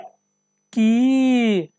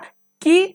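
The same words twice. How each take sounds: First: The vowel is long and drawn out. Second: The vowel is short and said quickly. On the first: "बट यहाँ पे की" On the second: "अभी आगे आपको दे रहा था की"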